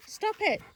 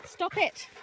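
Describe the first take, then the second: First: Very high, louder stop it; sharper scold. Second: Sharp scold. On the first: Owner telling rough-playing dog to stop, sharp high scold. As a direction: snap it to make the dog quit. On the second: Scolding dogs playing too rough. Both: Real, not acted.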